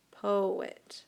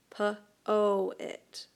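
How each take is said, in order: First: Said in the usual way. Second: "Poet" stretched as po-et, long O then a separate E; sounding it out. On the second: Shown as a demonstration. Teacher to students finding the long vowel, stretched "Poet". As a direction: drag out "Poet" so both syllables ring. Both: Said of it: "poet makes the long vowel sound".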